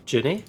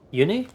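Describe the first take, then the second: First: "Junie?" with a j sound, rising. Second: "Uni?" said as you-nee, questioning; Uni as written. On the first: Trying another reading of the name, "Junie?" with j. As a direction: say "Junie?" starting with j. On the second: Puzzling over the character's name, "Uni?" read as you-nee. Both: Real, not acted.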